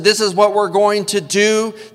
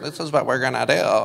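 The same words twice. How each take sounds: First: It is said in a plain, direct voice. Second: It is said in a put-on mocking voice. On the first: A parent is giving an instruction. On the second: The words are thrown back to mock the parent.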